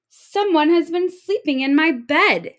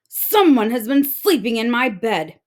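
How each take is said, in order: First: High, loud indignant mother; mother bursting with outrage; mother octopus finds her bed torn; angry mother octopus. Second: Angry father octopus. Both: Acted.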